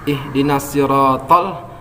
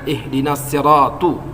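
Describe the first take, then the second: First: The last word ends with an 'a' vowel. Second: The last word ends with a 'u' vowel. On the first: The speaker calls it right. "Misalnya ihdinas siratal" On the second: The speaker calls it wrong. "dibaca misalnya ihdinas siratu. Dia paham jelas, tahu bahwa yang dibacanya itu salah"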